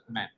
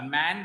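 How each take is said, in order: First: "मैन" short, like "men"; short vowel. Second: "मैन" with the long open A of "man"; long vowel. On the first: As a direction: cut the vowel in the final "मैन". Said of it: "इसको हम थोड़ा सा काट देते हैं". ("मैन" का स्वर छोटा) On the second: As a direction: stretch the vowel in "मैन" slightly. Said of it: "इसमें हम थोड़ा लंबा खींचते हैं". ("मैन" का स्वर लंबा) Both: Shown as a demonstration.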